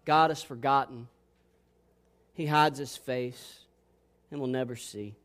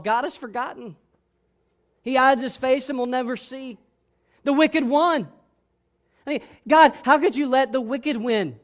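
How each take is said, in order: First: Said to himself. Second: Higher, anguished protest; crying out. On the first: The psalm's speaker saying it to himself, low and quiet. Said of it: "He says to himself". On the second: Disciples crying out Psalm ten after the crucifixion, anguished protest. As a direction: build from complaint to raised cry at God. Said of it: "maybe they would cry out". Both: Acted.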